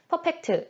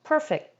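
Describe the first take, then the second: First: All syllables are said evenly without stress. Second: The stress is on the first syllable. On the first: The speaker calls it wrong. "한글로 이 perfect을 발음을 하면 강세 없이 그냥 쭉 발음하시잖아요" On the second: The speaker calls it right. "per에다가 올려주시고 fact에서 내려주시면 됩니다"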